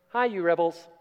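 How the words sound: It is said gently and quickly.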